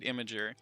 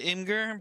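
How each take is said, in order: First: It starts with the sound of 'image'. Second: It starts with a short 'im' sound. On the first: The speaker calls it right. "you're supposed to pronounce it Imager" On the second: The speaker calls it wrong. "I liked calling it Imgur"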